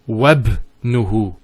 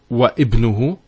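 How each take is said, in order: First: Wa runs straight into the b sound. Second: A glottal stop separates wa from ibnuhu. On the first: The speaker calls it right. "We go straight to the ba" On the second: The speaker calls it wrong. "It's not wa ibnuhu"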